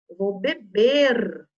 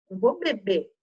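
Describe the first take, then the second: First: Slow "beber" with a long, clear last R; final R pronounced. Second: "beber" said as "bebê", no R; dropped final R. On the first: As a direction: lean hard on the final R of beber. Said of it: "Tem que olhar como que é o verbo". ("beber" com R final bem marcado) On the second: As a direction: swallow the last R of beber. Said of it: "gente já comendo essa letrinha". ("beber" sem o R final) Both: Shown as a demonstration.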